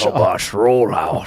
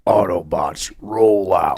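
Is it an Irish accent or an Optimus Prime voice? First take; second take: Irish accent; Optimus Prime. First: It is said in an Irish accent. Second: It is said in an Optimus Prime voice.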